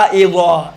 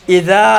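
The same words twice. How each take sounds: First: اذا thick and rounded, "izaw"; heavy zaa. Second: اذا with a light, open ذ; thin zaal. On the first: Teacher drills the contrast, heavy. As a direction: fatten اذا into ظ. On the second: Teacher drills the contrast, thin. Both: Shown as a demonstration. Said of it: "زال کو آپ موٹا تلفظ کریں".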